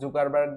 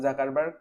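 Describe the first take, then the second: First: The first vowel sounds like 'u'. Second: The first vowel sounds like 'a'. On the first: Some people pronounce the name this way. "কেউ জুকারবার্গ বলে" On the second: Other people pronounce the name this way. "কেউ জাকারবার্গ"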